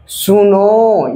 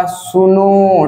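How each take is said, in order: First: सुनो with the final ओ held very long, like calling out far away; pluta, triple-long vowel. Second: सुनो said slowly, its last vowel lengthened; drawn-out call. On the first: Teacher demonstrating the triple-length vowel to the class. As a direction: draw out the ओ of सुनो as if calling across a field. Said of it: "तीन गुना समय लगता है". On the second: Teacher giving students a first example of a prolonged vowel. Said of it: "तीन गुना समय". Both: Shown as a demonstration.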